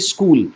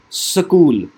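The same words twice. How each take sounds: First: The s and k are joined directly. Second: A short vowel separates the s and k.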